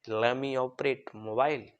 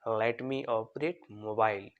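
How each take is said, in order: First: Let and me blend into one word, lemme. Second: Let and me are said as two separate words. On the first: "लेट और मी को आप मिलाकर क्या बोलोगे, लेमी" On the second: "तो sentence कैसे बनेगा"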